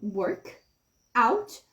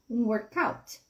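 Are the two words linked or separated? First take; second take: separated; linked. First: The two words are said separately. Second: The two words are linked together.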